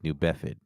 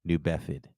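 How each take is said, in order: The two takes are said the same way.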